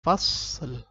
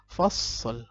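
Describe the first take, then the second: First: The final l flows on smoothly. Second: The same.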